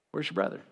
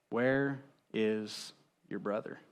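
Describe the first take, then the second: First: A soft whispered echo. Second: A slow, hushed question; slow and soft. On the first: God pressing Cain again, in a whisper. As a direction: breathe the question out as a whisper. God's question repeated. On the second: God asking Cain where his brother is, slow and hushed. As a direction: ask it slowly, barely above a breath. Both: Acted.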